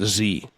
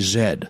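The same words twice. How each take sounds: First: It is said the American way, zee. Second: It is said the Canadian way, zed.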